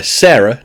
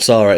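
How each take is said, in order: First: "Sarah" said as SAIR-uh; first vowel of "Sarah" as in "air"; SAIR-uh pronunciation. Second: "Sarah" said as SAH-ruh; SAH-ruh pronunciation. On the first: Host placing the customer at the counter, "Sarah" as SAIR-uh. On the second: Host ruling out the other name, "Sarah" as SAH-ruh. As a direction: open "ah" in the first syllable of "Sarah". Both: Shown as a demonstration. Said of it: "not Sarah".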